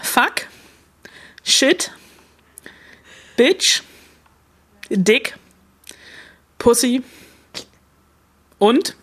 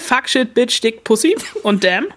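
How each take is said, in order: First: The list is said slowly. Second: The list is said fast.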